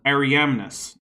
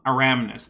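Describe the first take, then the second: First: The name is said with four syllables. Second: The name is said with three syllables. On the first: The speaker calls it right. "There's an I in there" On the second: The speaker calls it wrong. "not Aramnus"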